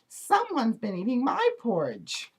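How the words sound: It is said in a squeaky little voice. "in his squeaky little voice"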